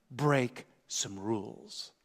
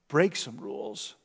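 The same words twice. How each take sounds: First: Soft, very slow, drawn out; hushed slow emphasis. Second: Said in the usual way. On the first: Shown as a demonstration. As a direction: let it sink in, almost under your breath.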